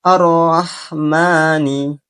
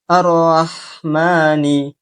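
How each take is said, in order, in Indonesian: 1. Vokal setelah m dibaca dua harakat. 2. Vokal setelah m dibaca dua harakat.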